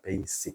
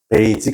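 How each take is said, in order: First: The middle consonant is an s sound. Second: The middle consonant is a j sound. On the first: The speaker calls it right. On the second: The speaker calls it wrong.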